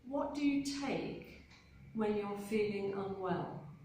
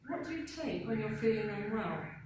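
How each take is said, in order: First: It is spoken slowly and carefully. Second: It is spoken at a normal, quicker speed. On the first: "The first time I will say it nice and slowly" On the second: "So normal speed"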